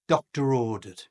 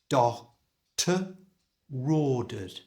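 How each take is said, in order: First: The phrase is said at normal speed. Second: The phrase is said slowly.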